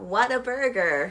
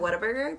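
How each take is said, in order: First: It is said with amazement, like an exclamation. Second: It is said flatly, like an ordinary name. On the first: The burger is remarkably good. "You're supposed to be like, oh, wow, what a burger" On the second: It names the restaurant. "you pronounce it Whata Burger"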